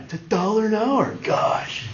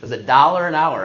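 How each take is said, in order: First: Higher, put-on dorky voice ending in a voiceless sigh; Napoleon Dynamite. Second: Said in the usual way. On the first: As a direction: do an exasperated movie nerd. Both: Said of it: "I feel like Napoleon Dynamite".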